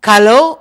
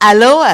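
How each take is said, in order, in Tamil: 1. இச்சொல் கடின 'g' ஒலியில் தொடங்குகிறது. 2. இச்சொல் நேரடியாக உயிரெழுத்து ஒலியில் தொடங்குகிறது. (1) "கலோ அல்ல" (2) "அலோ அல்ல"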